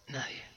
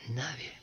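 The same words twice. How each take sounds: The two takes are said the same way.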